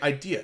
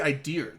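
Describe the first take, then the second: First: The word ends in a vowel with no R. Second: The word ends with an added R sound. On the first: "they'll say idea" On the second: "They won't say idea. The only time they put the R in"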